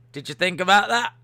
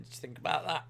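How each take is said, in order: First: Pushy repeat. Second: Soft aside. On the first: Repeats the question to Austin. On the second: Teasing Austin about the message. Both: Acted.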